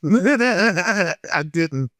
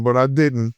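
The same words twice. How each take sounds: First: Denial laughed through; laughing. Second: Said in the usual way. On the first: Real, not acted. Still amused insisting he held his tongue, laughing. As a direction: laugh while repeating it.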